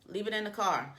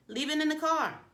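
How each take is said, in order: First: Said in the usual way. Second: High insistent. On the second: Shown as a demonstration. Coach tells phone-lovers to leave it, high insistent. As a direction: leave it in the car, high and pointed. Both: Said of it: "if you're someone who do not believe".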